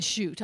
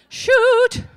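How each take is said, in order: First: Said in the usual way. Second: High, loud, sharp Shoot!; mother's mock swear. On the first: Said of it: "I doubt he said". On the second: Mother shrieking Shoot! after cutting her hand. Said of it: "That would be my mother".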